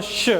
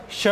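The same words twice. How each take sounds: First: "श" as a drawn consonant with little vowel; half letter sound. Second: "श" sounded out with its vowel; full letter sound. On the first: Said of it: "तो स के लिए अपन दो". (आधे "श" का उच्चारण) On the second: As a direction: give "श" as a whole syllable. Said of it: "letters का यूज़ करते हैं हिंदी वर्णमाला से". (पूरे "श" का उच्चारण) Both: Shown as a demonstration.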